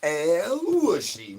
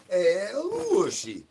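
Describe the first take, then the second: First: Slow, stretched sing-song name call; stretched pet call; drawn-out call. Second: Slow, higher stretched name call; slow high pet call; drawn-out call. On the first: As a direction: draw the name out like calling a pet. Calling out a pet's name. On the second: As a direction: croon the name out slowly. Calling the pet again. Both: Acted.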